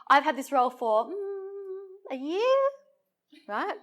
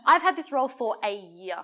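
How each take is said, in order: First: It is hesitant, with a filler and questioning tag. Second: It is confident and direct, with no hesitation. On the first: The speaker seems unsure of the fact. The speaker calls it wrong. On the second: The speaker is certain of the fact. The speaker calls it right.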